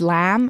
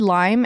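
First: "lamb" for lime, with a Southern flat vowel; imitated Southern accent. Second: Said in the usual way. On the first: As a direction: mimic her Southern "lime" so it sounds like "lamb". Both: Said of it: "where your little accent comes from".

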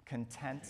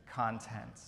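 First: Content said con-TENT, stress on the second syllable, as in happy. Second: Content said CON-tent, stress on the first syllable, as in the contents. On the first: Preacher teaching the congregation to say the word, con-TENT stressed late. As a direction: say Content with the weight on TENT, rising. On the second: Preacher teaching the congregation to say the word, CON-tent stressed early. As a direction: say content with the weight on CON, falling. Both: Shown as a demonstration. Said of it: "if you pronounce them a little bit differently".

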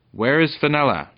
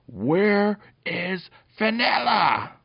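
First: High, loud challenge; brave shout. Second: Very high, slow, drawn-out yell; full yell. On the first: Peter challenges the goblin dog over Fenella, brave shout. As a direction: call it out boldly and loudly. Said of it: "shouted Br-, Peter bravely". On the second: Peter yells in the goblin dog's face, full yell. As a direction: yell each word at full voice. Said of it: "and yelled at him". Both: A narrator's reading.

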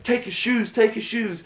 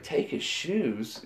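First: Gangster demand. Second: Soft, slow, deadpan echo; slow quiet repeat. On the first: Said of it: "they're like". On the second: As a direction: repeat it quietly, dragging each word. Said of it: "and he's like". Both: Retold or imitated.

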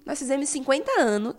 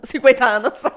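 First: Said in the usual way. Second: Laughing. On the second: Real, not acted. Repeats the slip while laughing.

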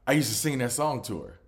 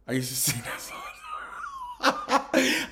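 First: Said in the usual way. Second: Slow, high, laughing sing-song; laughing so hard the line goes up into a squeal. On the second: Real, not acted. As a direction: crack up while stretching it out.

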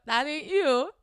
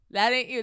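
First: Higher, louder disbelief; mock disbelief at his fake voice; incredulous. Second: Said in the usual way. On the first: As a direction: call him out, stunned.

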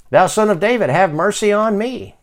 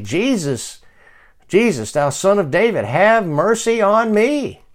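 First: Louder, high-pitched plea from the first word; insistent high call for mercy; crying out more. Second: Higher-pitched plea, last words drawn out; pleading call that climbs in pitch; crying out. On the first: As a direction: cry out all the more for mercy. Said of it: "he cried the more". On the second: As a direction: cry out for mercy, building as you go. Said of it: "He began to cry out". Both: Acted.

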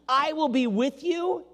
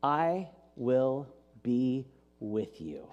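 First: Higher and slower, emphasis on you; quoted promise. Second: Lower, softer, very slow and solemn; patient God. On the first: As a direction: lift the promise gently, landing on you. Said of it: "says to us". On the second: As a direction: speak it like eternal, calm divine reassurance. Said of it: "God answers with the patience of eternity". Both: Acted.

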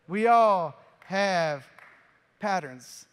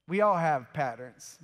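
First: Drawn out, very slow, with a pause before "patterns"; slow, drawn-out emphasis. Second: Said in the usual way. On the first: Shown as a demonstration. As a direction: let it sink in, word by word.

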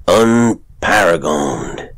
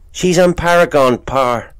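First: "Unparagoned" drawn out very slowly, falling; savoured word. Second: High, loud country lad; boy voice. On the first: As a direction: roll out "Unparagoned" like a prize. Father savours son's word. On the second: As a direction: show off a fancy word, proud. Boy answers father. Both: Acted.

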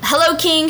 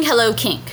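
First: Lightly raised, ceremonious hello; mock royal greeting. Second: Said in the usual way. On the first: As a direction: greet the king with mild pomp. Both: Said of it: "you know".

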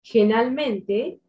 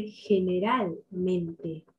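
First: "Generalmente" squashed to "genalmente"; swallowed syllable. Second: "generalmente" slow, every syllable sounded; careful, complete "generalmente"; clearly articulated. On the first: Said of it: "sin comerte las sílabas. Por ejemplo". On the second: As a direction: give "generalmente" all five syllables, unhurried. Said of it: "en lugar de generalmente". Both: Shown as a demonstration.

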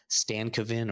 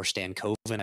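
First: Stankoven with a short, reduced middle syllable, like STAN-kuh-vin; unsure pronunciation. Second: Stankoven with a long O, like stan-KOH-ven; alternative pronunciation. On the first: Host guessing at the rookie's name, Stankoven with a weak middle vowel. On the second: Host trying the rookie's name another way, Stankoven with long KOH. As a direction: say Stankoven with KOH drawn out in the middle. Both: Real, not acted. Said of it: "I don't know how to pronounce the name".

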